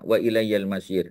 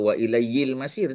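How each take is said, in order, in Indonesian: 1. Vokal setelah 'ilayy' adalah bunyi 'a'. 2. Vokal setelah 'ilayy' adalah bunyi 'i'. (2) "Kita tak kata"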